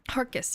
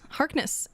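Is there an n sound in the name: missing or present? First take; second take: missing; present. First: The name is said without an n sound. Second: The name is said with an n sound. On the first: The speaker calls it wrong. "he ignores the the N" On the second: The speaker calls it right. "but it is Harkness"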